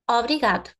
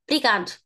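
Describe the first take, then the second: First: The first vowel is pronounced clearly. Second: The first vowel is nearly dropped. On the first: "If I pronounce it clearly" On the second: "when we are in a hurry ... we can just don't pronounce the obri the O"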